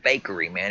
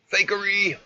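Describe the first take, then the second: First: Said in the usual way. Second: High, loud mock outburst; exclaiming. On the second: Real, not acted. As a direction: belt out the word Fakery!. Streamer calling the video fake.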